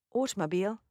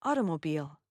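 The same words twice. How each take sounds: First: British AUTOMOBILE with a crisp T, ending "beel"; British accent. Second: American accent. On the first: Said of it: "British accent". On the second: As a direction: say AUTOMOBILE the American way, "AH-duh-mo-beel". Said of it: "American accent". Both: Shown as a demonstration.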